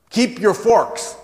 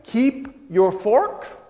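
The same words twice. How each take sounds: First: Put-on high, loud, slow German-accented command; thick German accent. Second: High, loud, drawn-out rising question; baffled question. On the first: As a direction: proclaim it firmly in a German accent. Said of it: "She had a very thick German accent". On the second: Retold or imitated. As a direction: echo it slowly in comic disbelief. Repeats her words as baffled question.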